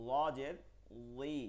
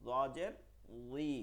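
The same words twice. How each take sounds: No difference in how they are said.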